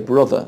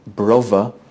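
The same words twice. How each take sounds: First: It is said with a non-London pronunciation. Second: It is said with a London pronunciation. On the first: "people outside London would say" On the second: "where a Londoner might say"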